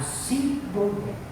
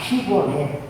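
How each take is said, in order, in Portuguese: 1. A palavra começa com som de 's'. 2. A palavra começa com som de 'sh'. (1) "Eles falavam Sibolete" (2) "Eles não conseguiam falar Shibolete"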